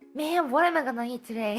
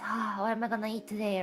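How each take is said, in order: First: It sounds excited and eager. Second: It sounds bored and resigned.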